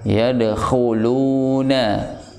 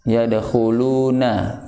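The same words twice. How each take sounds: First: The kh sound is thick and full. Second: The kh sound is thin and weak. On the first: The speaker calls it right. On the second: The speaker calls it wrong.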